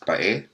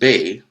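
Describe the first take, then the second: First: It is said as two vowels, ba-e. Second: It is said as one syllable, bay. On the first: This is how the local people say it. "which the natives pronounce as Bae" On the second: This is how the name is said today. "Now pronounced Bay with a Y"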